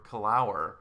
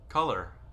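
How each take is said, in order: First: The last syllable sounds like 'our'. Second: The last syllable is a short 'er' sound. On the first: The speaker calls it wrong. "That effectively makes it kalur or kalour" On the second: The speaker calls it right. "O R can have essentially a short U R sound"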